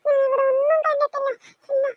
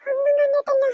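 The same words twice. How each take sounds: First: Tearful, frightened denial; crying denial. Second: Said in the usual way. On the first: Acted. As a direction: deny it through tears. Frightened child denies seeing anything.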